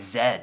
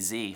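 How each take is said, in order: First: The letter is pronounced 'zed'. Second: The letter is pronounced 'zee'. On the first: The speaker calls it right. "the Euro Z" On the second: The speaker calls it wrong. "I didn't say Z. I would never say Z. It's so pedestrian"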